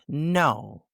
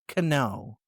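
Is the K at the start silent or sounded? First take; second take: silent; sounded. First: The word begins with an N sound. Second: The word begins with a K sound. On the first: The speaker calls it right. "It's no" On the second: The speaker calls it wrong. "not cano"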